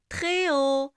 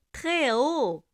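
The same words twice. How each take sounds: The two takes are said the same way.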